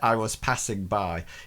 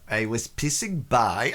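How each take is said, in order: First: It is said in a plain English accent. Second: It is said in a comic French accent. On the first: "he doesn't say" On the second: "he says"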